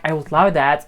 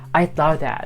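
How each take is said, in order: First: The word 'would' is said in full. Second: The word 'would' is contracted to 'I'd'. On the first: "instead of saying like" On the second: "we say"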